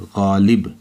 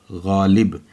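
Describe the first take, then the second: No difference in how they are said.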